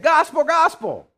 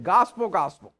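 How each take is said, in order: First: "Gospel, gospel" called out much higher and louder; jubilant angel proclamation. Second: Said in the usual way. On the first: Retold or imitated. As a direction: announce it like angels swooping down from the sky. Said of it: "they swooped down and said". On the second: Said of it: "If you'll let me just paraphrase it like that".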